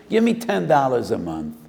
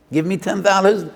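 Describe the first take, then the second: First: Said in the usual way. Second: High, loud "Give me ten dollars"; loud acceptance. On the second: Acted. Lender accepting the small offer, loud and high. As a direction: stress the offer loudly.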